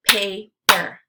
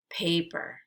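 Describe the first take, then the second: First: "Paper" as two separate beats, Pa – per; syllables split apart. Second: Said in the usual way. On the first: Shown as a demonstration. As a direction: say "Paper" syllable by syllable, pausing between. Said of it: "give you the parts of the syllable". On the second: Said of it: "blend it together".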